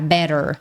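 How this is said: The t is a quick flap like r. "no American e no Canadian English, esse T vai ter som de R de arara"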